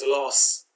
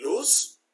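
First: "loss" with a short o, louder; mispronounced as LOSS. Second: "loose" with a long oo, pitched higher; pronounced LOOSE. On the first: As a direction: say "loss" as the common misreading of lose. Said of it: "people pronouncing L O S E as". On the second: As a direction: say "loose" as "looss". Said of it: "both of them are pronounced as loose". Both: Shown as a demonstration.

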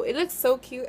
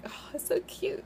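First: Said in the usual way. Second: Gushing. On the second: Real, not acted. Gushing over tiny cute palette.

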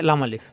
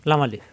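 The two takes are said the same way.

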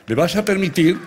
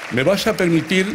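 Both takes have the same delivery.

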